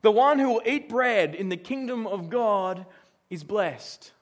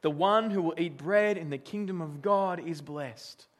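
First: Slow, louder verse read; scripture reading. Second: Said in the usual way. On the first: Shown as a demonstration. Preacher reading the verse aloud to the congregation, slow and weighty. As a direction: read the verse out slowly and firmly. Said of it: "Well, verse fifteen". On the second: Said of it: "says this".

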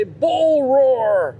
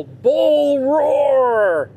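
First: High barked "Bull roar" once more, in a put-on voice; mock drill sergeant yell. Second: High barked "Bull roar" in a put-on voice; mock drill sergeant yell. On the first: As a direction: bark it at the class like the old professor. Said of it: "He'd say". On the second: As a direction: bellow it like a drill sergeant slamming the table. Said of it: "and yell".

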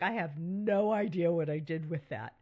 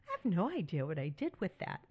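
First: Mock bewildered, a bit louder; baffled quote. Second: Tossed off fast, lightly amused; quick quote. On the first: Admitting to listeners she can't find things, mock bewildered. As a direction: act lost about where it went. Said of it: "you like". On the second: Retold or imitated. Telling widows she still says this, quick and offhand. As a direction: rattle it off fast and casual. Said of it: "things that I still say".

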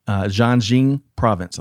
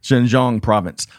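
First: "Jiangxing" said as jee-ang-shing, stress on the wrong syllable; "Jiangxing" misread, first syllable jee-ang, second shing; mispronounced place name. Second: "Xinjiang" carefully corrected, shin then jahng; corrected pronunciation. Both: Real, not acted. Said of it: "I got the wrong emphasis on the wrong syllable".

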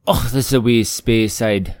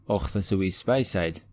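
First: Loud, drawn-out Scottish burr with SPAY-side; Scottish lilt, throaty "och"; Scottish accent. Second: Softer Scottish try with SPY-side; Scottish, throaty "och"; Scottish accent. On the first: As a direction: put on a hearty, slow Scottish accent. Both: Acted. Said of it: "That sounds a bit more Scottish".

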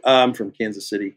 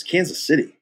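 First: Said in the usual way. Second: Higher, judgmental questioning of the name; judgmental echo. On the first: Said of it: "I said where I was from". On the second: Retold or imitated. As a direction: echo it back as if disapproving. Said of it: "judgmental about it".

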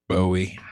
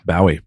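First: "Bowie" as BOH-ee; "Bowie" with first syllable rhyming with "toe"; American pronunciation. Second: "Bowie" as BOW-ee, like taking a bow; British pronunciation imitated. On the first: Shown as a demonstration. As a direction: say "Bowie" with a long "oh" as in "go". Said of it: "don't know how to say". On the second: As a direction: say "Bowie" with "ow" as in "cow". Echoes the disputed British pronunciation.

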